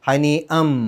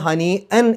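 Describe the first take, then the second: First: The word ends with an m sound. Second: The word ends with a clear n sound. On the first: The speaker calls it right. "മീമിലേക്കാണ് കൊണ്ടുപോവുക" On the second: The speaker calls it wrong. "എന്നല്ല പറയാ"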